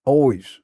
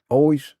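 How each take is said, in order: Both takes have the same delivery.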